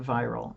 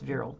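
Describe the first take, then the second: First: It is pronounced like the word viral. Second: It is pronounced like the word virile. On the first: The speaker calls it wrong. "she pronounced it viral" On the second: The speaker calls it right. "it's it's virile"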